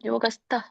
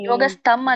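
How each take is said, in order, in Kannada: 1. ಇದರಲ್ಲಿ ಮಹಾಪ್ರಾಣ 'th' ಇದೆ ಮತ್ತು ಕೊನೆಯಲ್ಲಿ 'm' ಇಲ್ಲ. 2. ಇದರಲ್ಲಿ ಸರಳ 't' ಇದೆ ಮತ್ತು ಕೊನೆಯಲ್ಲಿ 'm' ಇದೆ.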